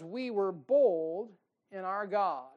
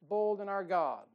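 First: Slow, stretched with bold stressed; preached quote. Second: Said in the usual way. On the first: Acted. Preacher reading Paul to the church, slow and stressed. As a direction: lean hard on bold. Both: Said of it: "Paul says".

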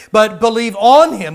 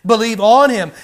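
First: ON hit hard and loud; stress on ON. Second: ON hit loud and firm; stress on ON. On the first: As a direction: lean on the word on, believe on Him. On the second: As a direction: press on the word on, not in. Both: Shown as a demonstration. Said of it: "Not necessarily believe in Him".

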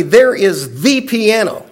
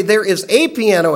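First: "the" in "There is the piano" said slow and weighted; stress on the article. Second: "a" in "There is a piano" stretched as "ay"; stress on the article. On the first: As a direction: lean on "the" to single out the piano. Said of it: "if we say". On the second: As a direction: hit "a" to mean any true piano. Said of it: "if I say". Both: Shown as a demonstration.

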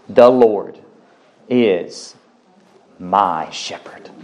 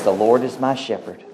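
First: "The Lord ... is ... my shepherd" drawn out slowly, pausing between words, lower at the end; slow emphatic repeat. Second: Said in the usual way. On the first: Shown as a demonstration. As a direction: lean on "my shepherd" slowly and deeply. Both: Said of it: "Did you get that?".

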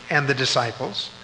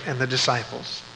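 The two takes are said the same way.

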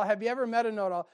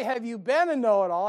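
First: Said in the usual way. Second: "been" hit louder as the wrong question; stress on been. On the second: Shown as a demonstration. Preacher mock-correcting himself, stressing "been". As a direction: lean on "been" in "Have you been a know-it-all?". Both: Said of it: "I didn't say".

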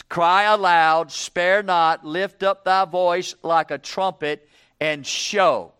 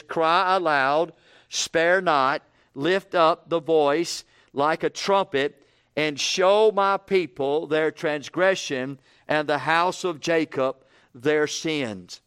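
First: Louder, slow, hammering the command; preaching at full force. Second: Slow, solemn reading of the verse; scripture reading. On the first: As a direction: proclaim it like a trumpet call. Preacher repeats the verse forcefully. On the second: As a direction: read it out slow and weighty. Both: Acted.

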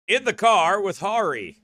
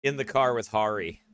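First: "In the car with Hari" higher and punched; emphatic repeat. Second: Said in the usual way. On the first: Real, not acted. Preacher repeating "In the car with Hari" to listeners, emphatic.

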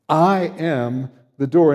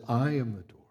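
First: I am the door with I leaned on, slow and louder; the pronoun I singled out slowly and firmly; stress on I. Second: Said in the usual way. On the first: Shown as a demonstration. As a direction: press hard on I, then let the door follow. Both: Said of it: "there's an emphasis on the personal pronoun I".

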